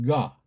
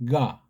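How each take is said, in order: No difference in how they are said.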